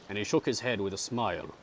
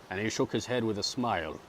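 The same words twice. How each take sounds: Both takes have the same delivery.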